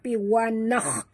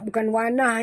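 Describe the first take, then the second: First: The consonant is a raspy kh from the throat. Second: The consonant is a plain h without rasp. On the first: The speaker calls it right. "ini huruf kha, jadi sebut betul-betul" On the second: The speaker calls it wrong. "jangan baca wanah, bukan wanah ya"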